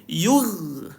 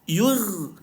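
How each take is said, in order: No difference in how they are said.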